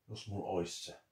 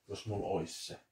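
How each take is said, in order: The two takes are said the same way.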